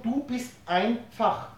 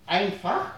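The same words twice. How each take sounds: First: "du" langsam und betont, dann "bist einfach"; Betonung auf du. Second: Said in the usual way. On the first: Shown as a demonstration. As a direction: das "du" hervorheben, langsam sprechen. (mit Betonung auf "du") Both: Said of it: "Mit etwas Betonung".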